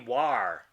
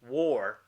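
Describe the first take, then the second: First: The vowel is an open 'ah' as in far. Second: The vowel is an 'or' sound as in for. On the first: This is how the spelling rules would predict it. The speaker calls it right. "So this should be war" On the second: This is how people actually say it. The speaker calls it wrong. "not war"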